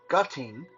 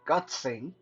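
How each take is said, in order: First: The word ends with a 'ting' sound. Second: The word ends with a 'tsing' sound. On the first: "all kind of weird uh, pronunciation" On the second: "all kind of weird uh, pronunciation"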